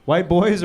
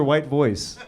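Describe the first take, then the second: First: Put-on "boys" begun with a clear B; clarifying "boys". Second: "voice" begun with V and ended in a hissed S; clarifying "voice". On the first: Host checking the audience's suggestion, "boys" with a distinct B. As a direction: stress "boys" with a B, not a V. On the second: Host checking the audience's suggestion, "voice" with a distinct V. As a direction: stress "voice" with a V, not a B. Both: Shown as a demonstration.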